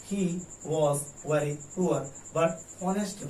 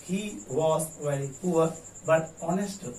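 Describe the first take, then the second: First: "He" set apart by a pause, then slow; pause after he. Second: Very slow, one even line; slow model answer. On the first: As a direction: split off "He" first. ("He" के बाद विराम) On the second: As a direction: read the answer slowly. (धीमा उत्तर वाचन) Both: Shown as a demonstration. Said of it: "answer देंगे".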